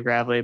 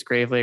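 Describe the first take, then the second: First: Gravely said the other way, with a changed vowel; alternative pronunciation of Gravely. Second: Gravely said as one option of two; first pronunciation of Gravely. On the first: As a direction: offer a second way of saying Gravely. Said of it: "Gravely or Gravely". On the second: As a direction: offer one way of saying Gravely, unsure. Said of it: "I don't know if it's". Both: Shown as a demonstration.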